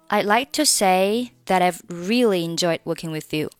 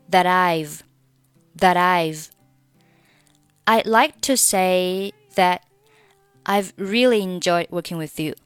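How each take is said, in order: First: The t of 'that' links into 'I've'. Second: The final t of 'that' is dropped. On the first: "选择两个连读成That I've" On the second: "你可以选择that 末尾不发音"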